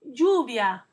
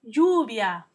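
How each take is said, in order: No difference in how they are said.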